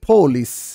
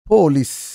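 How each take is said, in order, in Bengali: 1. শব্দটি ইংরেজি ঢঙে একটি মহাপ্রাণ p দিয়ে শুরু হয়। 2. শব্দটি ইংরেজি ঢঙে একটি মহাপ্রাণ p দিয়ে শুরু হয়।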